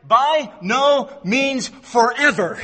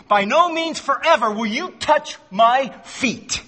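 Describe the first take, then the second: First: "By no means forever" said slowly, each word weighted; emphatic slow rendering. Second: "By no means forever" slow, stress on no; slow weighty refusal; emphatic slow quote. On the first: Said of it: "is what it really means". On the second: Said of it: "That's the language". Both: Shown as a demonstration.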